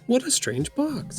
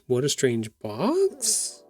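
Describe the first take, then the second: First: It is said as an amazed exclamation. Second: It is said as a puzzled question. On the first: "If we put the exclamation at the end" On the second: "If we make it a question mark"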